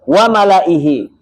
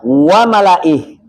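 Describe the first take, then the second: First: The word ends with its final vowel sounded. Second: The word ends without its final vowel. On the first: The reader continues to the next word. "Kalau wasal" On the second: The reader stops at this word. "Kalau waqaf"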